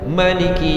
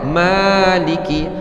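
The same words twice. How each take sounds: First: The first vowel is short. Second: The first vowel is held long. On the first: This is the reading without the alif. "tidak membaca alif. Mereka baca Maliki Yaumiddin" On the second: This is the reading with the alif. "kita baca Ma, dua harakat"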